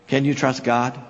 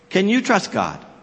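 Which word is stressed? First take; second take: God; you. First: The stress is on "God", not on "you". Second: The stress is on "you".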